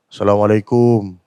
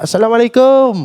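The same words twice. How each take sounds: First: It is said in a deep, husky voice. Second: It is said in a high-pitched voice. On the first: "garau suara dia"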